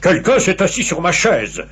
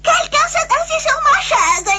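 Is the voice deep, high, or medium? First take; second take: deep; high. First: It is said in a very deep, big voice. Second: It is said in a small, high-pitched voice.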